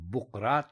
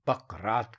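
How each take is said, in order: First: The first vowel is a 'u' sound. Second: The first vowel is an 'a' sound. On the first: The speaker calls it wrong. "बुकरात ना कहें" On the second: The speaker calls it right. "बल्कि बकरात कहें"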